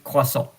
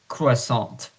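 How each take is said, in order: First: The word is said with a French pronunciation. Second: The word is said with an English pronunciation. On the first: "but in French croissant" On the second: "in English it's croissant"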